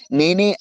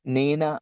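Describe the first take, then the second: First: నేనే said louder as a firm admission; owning up. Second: నేనా as an understated question of denial; evasive question. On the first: Preacher contrasts David's confession with Judas, owning up. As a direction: stress నేనే, owning the guilt. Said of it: "అన్నోడేమో". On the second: Preacher quotes Judas dodging his guilt, evasive question. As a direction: ask నేనా at ordinary volume, disowning it. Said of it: "అన్నవాడేమో ఉరిశిక్ష వేసుకొని". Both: Retold or imitated.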